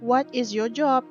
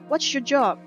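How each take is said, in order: First: Each word is said fully and separately. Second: The words are contracted and run together. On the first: "Tidak jelas seperti itu" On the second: "mereka bisa jadi menanyakan menggunakan gini"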